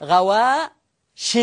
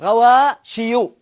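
First: غواش said "ghawaaa-shin", ending in n; غواش with a clear final nun; tanween ending. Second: غواشي said "ghawaaa-shiyu", ending in -yu; slow غواشي with a full -iyu ending; original underlying form. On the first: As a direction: draw out the aa in غواش, land on -shin. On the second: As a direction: draw out غواشي, sounding the ya with a damma. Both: Shown as a demonstration. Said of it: "هذه أصلها غواشي".

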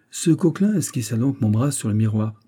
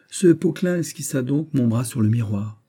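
First: "Coquelin" said with a K at the start; mistaken name. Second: "Poquelin" said with a P at the start; "Poquelin", P not K, after being corrected; corrected name. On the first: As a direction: misname him "Coquelin", K for P. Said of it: "Vous avez dit Coquelin". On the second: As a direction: restart the sentence with P in "Poquelin". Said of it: "Poquelin, pardon". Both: Acted.

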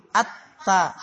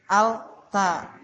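First: Slow "at-ta", lam merged into a double t; assimilated reading. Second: "Al-ta" with l held, then t; unassimilated reading. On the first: Teacher showing merged close sounds, slow "at-ta" without l. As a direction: merge the l into a held t in "at-ta". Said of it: "idghamkan sa-, saja karena berdekatan". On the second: Teacher showing the crowded articulation, l sounded in "Al-ta". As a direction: sound both l and t on the tongue tip. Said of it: "Di situ-situ aja ya, ujung lidah". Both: Shown as a demonstration.

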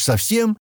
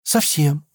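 First: High, rising incredulous question; astonished one-word question; surprised. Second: Higher-pitched voice, falling at the end; short falling reply; confirming answer. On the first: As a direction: ask in disbelief, pitch leaping up. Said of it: "Стэн удивился". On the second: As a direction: confirm it simply. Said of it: "ответила она". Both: A narrator's reading.

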